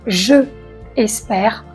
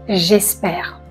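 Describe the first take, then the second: First: The vowel of je is fully pronounced. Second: The vowel of je is dropped. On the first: The speaker calls it wrong. "On ne dit pas je espère" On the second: The speaker calls it right. "on dit j'espère"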